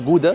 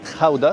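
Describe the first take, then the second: First: It begins with a hard g sound. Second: It begins with a throaty, rasping kh sound. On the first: This is how outsiders say it. "واحنا بننطقها جوده" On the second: This is how the locals say it. "الهولنديين بينطقوها كده"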